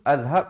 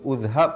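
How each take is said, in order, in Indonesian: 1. Kata ini diawali vokal a. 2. Kata ini diawali vokal u. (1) "ataupun azhab" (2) "Kita tak baca uzhab"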